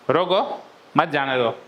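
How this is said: There is a pause right after 'roko'.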